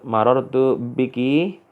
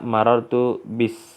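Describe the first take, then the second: First: The last word ends with a 'ki' sound. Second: The last word ends with an 's' sound. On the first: This is the standard form.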